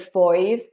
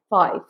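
First: The vowel is strongly rounded, like 'oi'. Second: The vowel is only softly rounded. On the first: "it's not so pronounced as like oi foive, but sometimes it can be" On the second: "usually it's like a softer oi, like 5"

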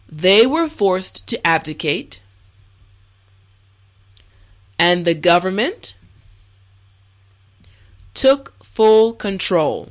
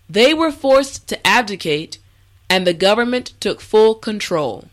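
First: The sentence is spoken slowly and carefully. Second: The sentence is spoken at a natural speed. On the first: "this time repeat after me" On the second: "the last time at a regular pace"

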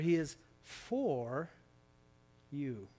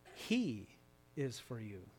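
First: The stress is on the word 'for'. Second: The stress is on the word 'he'.

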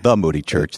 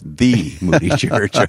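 First: The stress falls on the word Moody. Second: The stress falls on the word the. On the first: It is just one church among others. The speaker calls it wrong. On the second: It is the one famous, unique church. The speaker calls it right.

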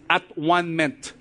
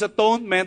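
First: The word is split into at, one, ment. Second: The word is said smoothly as one unit. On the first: "but I want to pronounce it as at-one-ment" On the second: "It's pronounced as atonement"

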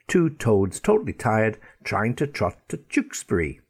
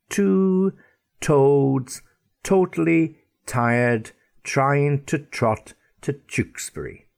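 First: The phrase is said at a normal, quicker pace. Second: The phrase is said at a slow pace.

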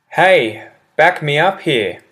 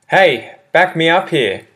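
The two takes are said the same way.

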